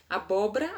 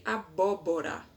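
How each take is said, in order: First: "Abóbora" said "abóbra", with the middle o dropped; colloquial abóbra. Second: Said in the usual way. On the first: Shown as a demonstration. Teacher showing the spoken "abóbra". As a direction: squeeze it to "abóbra". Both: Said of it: "ao invés de".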